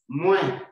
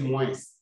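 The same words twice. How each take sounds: First: The final S sound is silent. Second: The final S sound is pronounced. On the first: The speaker calls it right. "The S does not sound" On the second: The speaker calls it wrong. "don't say moins"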